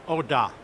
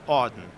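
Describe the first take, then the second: First: The surname is said with French pronunciation. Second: The surname is said with American pronunciation. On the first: The speaker calls it right. "what is the correct way to say your name?" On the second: The speaker calls it wrong. "in this country, how do they pronounce it?"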